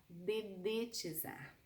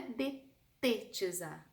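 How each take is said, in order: First: "dedetizar" slow and soft, de-de-ti-zar; correct pronunciation. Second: "detetizar" with a T in the middle, the mistaken form; wrong pronunciation. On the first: Teacher correcting the mistake, slow and careful. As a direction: spell out "dedetizar" slowly, syllable by syllable. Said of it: "não é detetizar, dedetizar". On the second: Teacher showing students the common mistake, plain. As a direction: say "detetizar", te-te, as the error. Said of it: "não é detetizar". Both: Shown as a demonstration.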